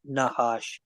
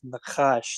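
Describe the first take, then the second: First: The middle consonant is a soft, breathy h. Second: The middle consonant is a throaty, rasping ch. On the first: The speaker calls it wrong. "not Nahash" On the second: The speaker calls it right. "his name literally is Nakash"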